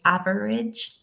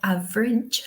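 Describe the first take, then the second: First: It is said in an American accent. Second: It is said in a British accent.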